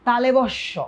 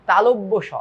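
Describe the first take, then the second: First: তালেবস্য run together as "ta-le-bosh-sho"; common mispronunciation. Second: তালব্য স clearly as "ta-lob-bo sho"; correct pronunciation. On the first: Retold or imitated. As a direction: say তালেবস্য as many wrongly do. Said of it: "অনেকে বলবে এটাকে". (প্রচলিত ভুল উচ্চারণে "তালেবস্য") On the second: Shown as a demonstration. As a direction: say তালব্য স firmly, as two words. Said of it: "এটা কিন্তু তালব্য স". (শুদ্ধ উচ্চারণে "তালব্য স")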